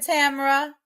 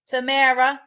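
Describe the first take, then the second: First: "Tamara" said as TAM-er-uh; misspoken name. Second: "Tamara" said as tuh-MAIR-uh; corrected name. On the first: Streamer greets viewer with misspoken name, TAM-er-uh for "Tamara". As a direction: stress the first syllable of "Tamara", as TAM-ruh. Name said, then corrected right after. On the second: Streamer fixes viewer's name, corrected to tuh-MAIR-uh for "Tamara". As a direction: stress the middle syllable of "Tamara", as tuh-MAIR-uh. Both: Real, not acted.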